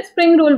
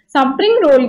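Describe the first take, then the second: First: स्प्रिंग with s and p run together, "spring"; correct pronunciation. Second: स्प्रिंग said "sa-pring", vowel after the s; mispronounced स्प्रिंग roll. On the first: Shown as a demonstration. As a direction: say स्प्रिंग roll as "spring roll", no vowel after s. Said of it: "स्प्रिंग roll बोलो". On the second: Retold or imitated. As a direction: break the opening cluster of स्प्रिंग into "sa-pring". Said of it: "गलत तरीके से बोलते हैं".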